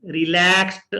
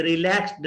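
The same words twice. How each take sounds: First: रिलैक्स्ड ending in a t; रिलैक्स्ड said as relakst; रिलैक्स्ड with a crisp final t. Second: रिलैक्स्ड ending in a d sound; रिलैक्स्ड with a voiced final d; wrong d ending. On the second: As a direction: say रिलैक्स्ड as relaxd. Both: Shown as a demonstration. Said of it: "रिलैक्स्ड नहीं है".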